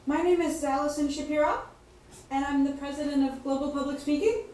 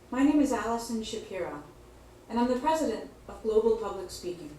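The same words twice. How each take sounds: First: The voice rises at the end of the sentence. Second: The voice falls at the end of the sentence. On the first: The speaker sounds unsure, as if asking a question. The speaker calls it wrong. "here's an example of uptalk" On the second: The speaker sounds confident and authoritative. The speaker calls it right. "here's an example of straight talk"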